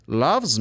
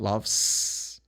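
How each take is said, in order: First: LOVES ending in a buzzed Z; voiced ending. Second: LOVES ending in a long S hiss; wrong hissed ending. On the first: Teacher models loves me, LOVES with voiced Z. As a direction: link the Z of LOVES onward. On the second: Teacher shows what not to say, LOVES with hissed S. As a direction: devoice and drag the end of LOVES. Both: Shown as a demonstration. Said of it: "Not loves".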